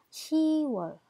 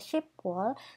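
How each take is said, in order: First: The first syllable ends without a p sound. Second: A p sound closes the first syllable. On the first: The speaker calls it right. "tapi dibaca 시월" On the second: The speaker calls it wrong. "tidak dibaca 십월"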